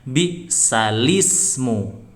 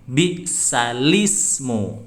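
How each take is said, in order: No difference in how they are said.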